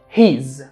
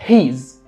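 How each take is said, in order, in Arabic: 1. اتدمجوا في مقطع قصير واحد، he's. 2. اتدمجوا في مقطع قصير واحد، he's.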